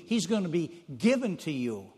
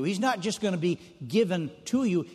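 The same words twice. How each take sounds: First: "given" carries the weight in "He's gonna be given to you"; stress on given. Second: "not" and "just" leaned on in "He's not just gonna be given to you"; stress on not just. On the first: Preacher contrasts dedication to his congregation, pressing on "given". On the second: Preacher contrasts dedication to his congregation, leaning on "not just". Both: Shown as a demonstration. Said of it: "And there's a big difference".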